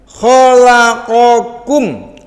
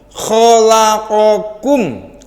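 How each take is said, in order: Both takes have the same delivery.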